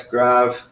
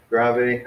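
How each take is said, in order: First: "grave" as one syllable, "grahv". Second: "grave" as two syllables, "GRAH-vay". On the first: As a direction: end "grave" on the v sound. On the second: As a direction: add an "ay" after the v in "grave". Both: Shown as a demonstration. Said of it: "however you wanna say that".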